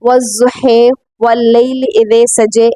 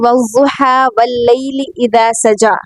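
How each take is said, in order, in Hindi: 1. अंतिम स्वर आगे की ओर झुके 'e' की आवाज़ हैं। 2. अंतिम स्वर खुले 'a' की आवाज़ हैं। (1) "दूसरी क़िराअत में या दूसरे अंदाज़ में" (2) "हम ऐसे पढ़ते हैं"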